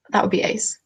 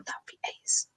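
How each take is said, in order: First: Said in the usual way. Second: Soft unvoiced whisper; "ace" whispered under the breath; whispered aside. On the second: Shown as a demonstration. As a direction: breathe it out as a secret. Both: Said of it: "make a note of British terms".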